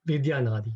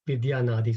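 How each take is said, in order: First: The vowels join with a y, giving four syllables. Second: The same.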